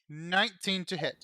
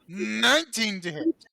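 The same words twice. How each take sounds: First: It is said flatly, without enthusiasm. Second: It is said with lively enthusiasm.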